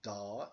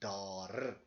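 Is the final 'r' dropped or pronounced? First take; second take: dropped; pronounced. First: The word ends on the vowel without 'r'. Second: The word ends with a pronounced 'r' sound.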